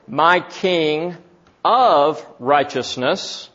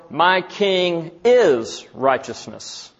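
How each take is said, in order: First: "of" set off by a pause and leaned on; slowly weight "of" before "righteousness"; stress on OF. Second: "is" leaned on, slow and deliberate; "My king", then a weighty "is"; stress on IS. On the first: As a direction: pause after "king", then a drawn-out "of". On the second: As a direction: draw out "is" before "righteousness". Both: Shown as a demonstration. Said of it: "it can be interpreted this way".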